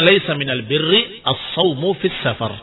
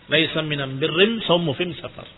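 First: The article is pronounced with an l sound. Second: The article is pronounced with an m sound. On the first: It is the standard form of the phrase. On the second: It follows the dialect of the sick man. "sesuai dengan dialek orang yang sakit tadi"

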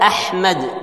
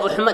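First: The word begins with an a vowel. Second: The word begins with a u vowel. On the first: The speaker calls it right. "Ada Ahmad" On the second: The speaker calls it wrong. "Tada Uhmad"

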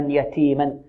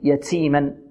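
First: The t sound is crisp with no hiss. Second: The t sound carries a hissing s quality. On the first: The speaker calls it right. "والتاء تخرج من طرف اللسان مع الحنك الأعلى" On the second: The speaker calls it wrong. "البعض يشرب التاء رائحة السين، هذا خطأ"

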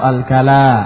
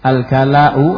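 First: The word ends in a long vowel without a stop. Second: The word ends with a glottal stop before the vowel. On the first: "tanpa hamzah" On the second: "dengan hamzah"

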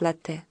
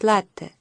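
First: The stress is on the last syllable. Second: The stress is on the first syllable. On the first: This is how people in Russia commonly say it. The speaker calls it wrong. "в Москве говорят «латте»" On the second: This follows the original Italian pronunciation. The speaker calls it right. "слово-то итальянское, и по-хорошему надо говорить «латте»"

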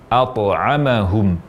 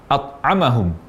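First: The t is released with a short bouncing echo. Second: The t is stopped with no bouncing release. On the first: The speaker calls it right. "dia dibaca qalqalah. Ada suara pantulan dari huruf ta" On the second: The speaker calls it wrong. "mengucapkan huruf ta bersukun tanpa qalqalah atau tanpa pantulan"

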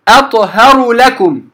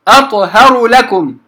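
The two takes are said the same way.

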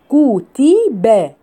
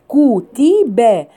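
The two takes are said the same way.

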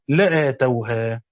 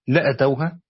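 First: The vowel after the hamza is long. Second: The vowel after the hamza is short. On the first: They would have given it. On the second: They would have come to it and done it.

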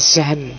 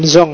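First: The name ends with an 'an' sound. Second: The name ends with an 'ong' sound. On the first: The speaker calls it right. "cuma bacanya apa? Kayak Zhan" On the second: The speaker calls it wrong. "Bukan Zhong ya"

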